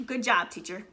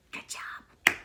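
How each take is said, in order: First: Dry mock praise; sarcastic praise. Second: Breathy whispered "Good job"; whispered sarcasm. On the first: Mom mocking the math teacher, dry sarcasm. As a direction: say it like you mean the opposite. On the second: Mom muttering to herself about the teacher, whispered. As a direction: whisper it as a bitter aside. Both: Real, not acted.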